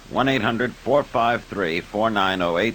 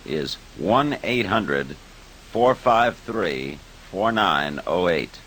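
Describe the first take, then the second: First: The number is read at normal speed. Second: The number is read slowly.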